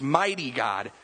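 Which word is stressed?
mighty. The stress falls on the word mighty. The focus is on his power. The speaker calls it right.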